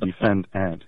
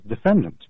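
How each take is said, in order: First: The last syllable is said as a full 'ant'. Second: The last syllable is said weak and reduced. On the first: The speaker signals membership in the legal profession. The speaker calls it wrong. "as though you were defending ants, the insects. And that's a very odd pronunciation" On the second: The speaker uses the ordinary everyday pronunciation. The speaker calls it right. "The proper or at least the normal pronunciation is defendant"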